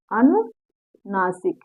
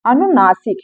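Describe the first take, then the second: First: अनुनासिक said very slowly and quietly, syllable by syllable; slow, soft drawn-out teacher's repetition. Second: Said in the usual way. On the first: Shown as a demonstration. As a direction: drill अनुनासिक slowly so the class can repeat. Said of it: "क्या कहते हैं?". (बहुत धीरे और धीमी आवाज़ में दोहराना) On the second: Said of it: "तो उसको क्या कहते हैं?".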